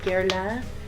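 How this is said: The name has a French-style pronunciation.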